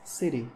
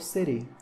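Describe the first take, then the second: No difference in how they are said.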